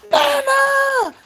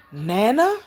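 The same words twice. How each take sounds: First: High, loud squeal of recognition; little girl calling out in joy; excited child's shout. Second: Put-on tentative rising question, as a child; little girl unsure it's really you. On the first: Retold or imitated. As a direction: shriek it like a delighted child. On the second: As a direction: ask it with a lift at the end. Retells child's first sighting of her.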